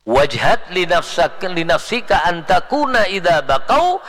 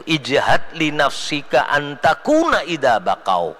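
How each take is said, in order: First: Chanted, ring the verse out with force; loud chanted Arabic verse. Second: Slow, chanted Arabic poem; chanted, intone the verse slowly. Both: Shown as a demonstration. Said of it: "Makanya kata syair kan gitu".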